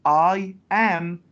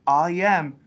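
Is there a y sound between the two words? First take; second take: no; yes. First: The two words are said without a y sound. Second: A y sound links the two words. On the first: The speaker calls it wrong. "don't say I am" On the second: The speaker calls it right. "we add the, the sound ya"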